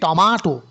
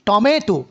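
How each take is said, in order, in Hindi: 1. यह ब्रिटिश लहजे में कहा गया है। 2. यह अमेरिकी लहजे में कहा गया है। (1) "ব্রিটিশরা বলে কি?" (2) "আমেরিকানরা বলে কি?"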